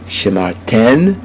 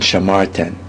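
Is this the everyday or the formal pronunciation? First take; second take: formal; everyday. First: It is the formal, careful reading pronunciation. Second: It is the everyday, street spoken pronunciation. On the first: It is how the word is read in scripture. "perfect pronunciation, for example, for a person who's reading it in the Torah" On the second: It is how people speak it today. "the way everyone in the modern day state of Israel speaks it"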